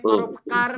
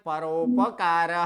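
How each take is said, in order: First: The r is half, joined straight to the next sound. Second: The r is full, with its vowel sounded. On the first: The speaker calls it wrong. "र कहीं आधा नहीं, परोपकार नहीं है।" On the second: The speaker calls it right. "तो क्या बोलना है?"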